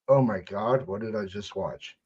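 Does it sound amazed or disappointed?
disappointed. It sounds disappointed and disgusted.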